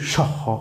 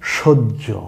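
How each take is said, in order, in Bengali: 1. শব্দটি h ধ্বনি দিয়ে শেষ হয়। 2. শব্দটি দ্বিত্ব j ধ্বনি দিয়ে শেষ হয়। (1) "অনেকে আছি আমরা, পড়ি সহ, না এটা সহ না" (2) "এটা সহ্য"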